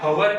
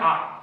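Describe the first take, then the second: First: The word begins with an h sound. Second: The word begins directly with a vowel. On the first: The speaker calls it wrong. "ઘણા લોકો આને હવર કહે છે, હવર ના કહેવાય" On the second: The speaker calls it right. "અહીંયાનું pronunciation આ થી થાય"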